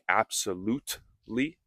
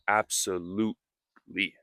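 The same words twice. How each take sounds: First: The T is clearly pronounced. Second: The T is soft and nearly silent. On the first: "Absolutely also has a T, but I didn't say absolutely" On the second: "I said absolutely"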